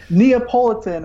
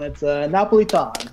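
First: Neapolitan said the American way, nee-uh-POL-i-tan; American pronunciation. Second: Napolitan in a light Italian accent, nah-po-lee-TAHN; a hint of an Italian accent on Napolitan. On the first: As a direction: Neapolitan with a flat American vowel. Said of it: "as, uh, the, uh, Americans like to pronounce it". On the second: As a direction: say Napolitan the Italian way, rolled and open. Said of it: "I'll have to use my Italian accent for that one". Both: Shown as a demonstration.

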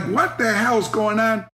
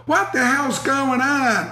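First: Slow, puzzled yell of a man jolted awake; startled snorer. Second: Higher, slow fake outrage mirroring him; mock echo. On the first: Retold or imitated. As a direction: play the groggy guy blasted by the headset. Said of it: "this guy's going like". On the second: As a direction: echo his words with put-on innocence. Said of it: "I would go".

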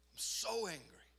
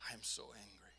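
First: 'so' leaps up high, held back in volume; strained, higher-pitched admission of anger; retold anger outburst. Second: Retold anger admission. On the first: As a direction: confess anger with a pained push on 'so'. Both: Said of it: "until I was like".

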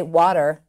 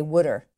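First: Said in the usual way. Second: Wooder with an OO vowel, water as wooder; Delco "wooder". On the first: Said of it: "they don't say". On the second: Shown as a demonstration. Teaching the interviewer the Delco word, wooder. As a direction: say water as wooder, Philly style. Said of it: "They say wooder".

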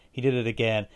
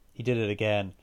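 The two takes are said the same way.

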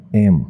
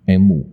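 First: M said as a clean em; teacher demo of English M; correct letter M. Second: M said the odd local way; mock wrong M; wrong letter M. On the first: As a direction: model the letter M clearly. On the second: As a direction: show the wrong M Taiwanese learners use. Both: Shown as a demonstration. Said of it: "不是".

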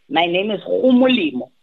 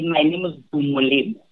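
First: "Gumolemo" opened on a rasped back-of-throat fricative; throaty G in Gumolemo. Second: "Gumolemo" opened on a plain hard g. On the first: As someone from Mafikeng introducing herself, throaty g in Gumolemo. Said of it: "then someone from Mafikeng says". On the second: Introducing herself to show how names are learned, hard g in Gumolemo. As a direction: say "Gumolemo" with a voiced hard g at the start. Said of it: "if I come to you and I say". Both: Shown as a demonstration.

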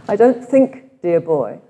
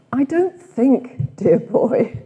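First: Louder cut-glass Oxford English, quoted. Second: Slow, drawn-out cut-glass Oxford English; imitating Bede's cut-glass Oxford English; posh Oxford English. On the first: Retold or imitated. Retreat leader repeats Bede's line in Oxford English. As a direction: do Bede's clipped-vowel Oxford English again, with relish. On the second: Retreat leader quoting Bede in Oxford English. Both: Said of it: "He had quite a cut glass Oxford English accent".

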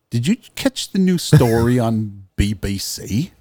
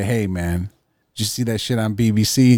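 First: Butchered British accent, played for laughs; mock-British newsy question; bad British accent. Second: Said in the usual way. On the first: Shown as a demonstration. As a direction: put on a hammy British accent. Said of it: "I butchered your accent". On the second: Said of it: "maybe it's the way you say it".

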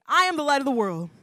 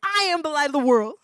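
First: Said together, louder; call-and-response. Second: Higher and louder, full of confidence; confident declaration. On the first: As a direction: lead the crowd in it. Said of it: "Everybody say that with me". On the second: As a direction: proclaim it boldly. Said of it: "Say it with some confidence". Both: Shown as a demonstration.

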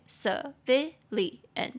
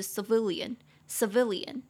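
First: Civilian slowly split, ci, vi, li, an; syllable by syllable. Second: Said in the usual way. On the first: Shown as a demonstration. Teacher showing four syllables of civilian, slowly separated. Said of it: "四个音节". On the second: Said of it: "平民的话就是civilian".

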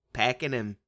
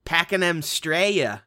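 First: Said in the usual way. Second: Put-on Australian accent. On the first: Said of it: "Probably right". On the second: Shout out in Australian voice.

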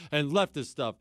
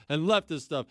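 No difference in how they are said.

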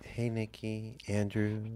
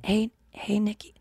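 First: Very soft hushed greeting; imitating the soft ASMR greeting. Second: Hushed attempt at the greeting; soft ASMR try. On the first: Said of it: "imitating the ASMR greeting". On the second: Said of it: "Wait, I wanna, like, even try to be".

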